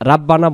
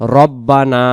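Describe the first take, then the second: First: The first vowel is an open 'a' sound. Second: The first vowel is a rounded 'o'-like sound. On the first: The speaker calls it wrong. "রাব্বানা বলবো না" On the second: The speaker calls it right. "উচ্চারণ রব্বানা"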